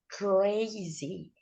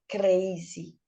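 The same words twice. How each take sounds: First: The R is a curled-back English R. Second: The R is a quick tongue tap. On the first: The speaker calls it right. "no meio da palavra cr, cr, cr" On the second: The speaker calls it wrong. "o R deles é esse R, rrr, esse R tap"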